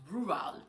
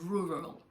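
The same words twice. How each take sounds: First: The ending of the word is stressed. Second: The beginning of the word is stressed. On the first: The speaker calls it wrong. "I thought it was rural" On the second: The speaker calls it right. "instead of rural ... you focus on the first two, three words"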